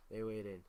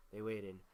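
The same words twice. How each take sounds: The two takes are said the same way.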